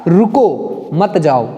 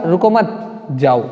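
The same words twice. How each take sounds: First: रुको drawn out, break, then मत जाओ together; slow, split after रुको to forbid जाओ; pause after रुको. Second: रुको मत run together, break, then low जाओ; pause after मत. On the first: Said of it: "इसी प्रकार यहाँ क्या हुआ?". (रुको के बाद विराम, मत जाओ साथ में) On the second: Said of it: "और इसका अर्थ क्या हुआ?". (रुको मत साथ में, फिर विराम और जाओ) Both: Shown as a demonstration.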